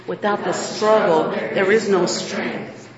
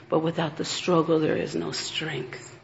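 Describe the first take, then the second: First: Slow, deliberate, each word spaced; call and response. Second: Said in the usual way. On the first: Shown as a demonstration. Preacher leading the congregation in repeating it slowly. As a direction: lead them through it word by word. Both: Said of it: "Can you repeat that with me?".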